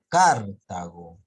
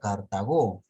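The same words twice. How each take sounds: First: The stress is on the first syllable. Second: The stress is on the last syllable. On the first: "si sería tilde en la car" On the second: "A menos que tenga tilde en la o"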